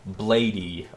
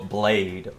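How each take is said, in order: First: The name is said as two syllables. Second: The name is said as one syllable. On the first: This is the form more people recognize. "I'll call him Blady because I mean, it's just easier to understand" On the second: This is the name's proper form. "the correct way to pronounce it is Blade"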